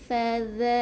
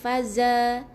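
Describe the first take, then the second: First: The middle consonant is a soft breathy 'th' sound. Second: The middle consonant is a buzzing 'z' sound. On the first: The speaker calls it right. "zal yang kecil tadi" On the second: The speaker calls it wrong. "bukan faza"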